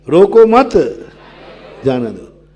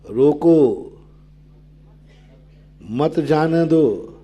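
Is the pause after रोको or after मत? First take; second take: after मत; after रोको. First: There is a pause right after मत. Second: There is a pause right after रोको.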